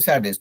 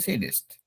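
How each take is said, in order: First: The first vowel sounds like 'a' in 'sad'. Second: The first vowel sounds like 'a' in 'say'. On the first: The speaker calls it wrong. "I will not से सैडिस्ट" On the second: The speaker calls it right. "I will say सेडिस्ट"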